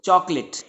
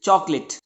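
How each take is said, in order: Both takes have the same delivery.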